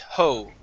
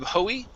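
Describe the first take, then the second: First: The final E is silent, giving one syllable. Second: The final E is pronounced as a second syllable. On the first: The speaker calls it right. "The E is silent" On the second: The speaker calls it wrong. "Instead of hoey"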